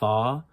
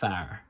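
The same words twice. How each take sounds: First: The final R sound is dropped. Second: The final R sound is clearly pronounced. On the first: "instead of far" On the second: "you would go far"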